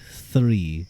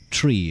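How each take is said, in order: First: It begins with an exaggerated TH sound. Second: It begins with a plain T sound. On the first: "I have to really go three three to to say it correctly" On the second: "tree is how I would say it"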